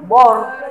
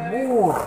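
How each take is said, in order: First: The vowel is a plain o sound. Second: The vowel is a long u sound. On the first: The speaker calls it wrong. "bukan juga bor" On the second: The speaker calls it right. "tapi bur"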